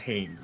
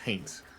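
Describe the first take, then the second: First: The T sound is softened or dropped. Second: The T sound is clearly pronounced. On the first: The speaker calls it wrong. "I always like soft pronounce the T. It's not Haynes" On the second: The speaker calls it right. "it's Haints"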